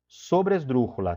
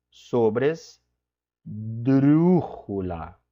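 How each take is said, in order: First: Said in the usual way. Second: "Sobresdrúxula" stretched very slowly, syllable by syllable; slow spelled-out word. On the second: Shown as a demonstration. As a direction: drag out every syllable of "Sobresdrúxula" for the class. ("Sobresdrúxula" dita bem devagar, sílaba por sílaba) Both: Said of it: "vai ser aqui uma".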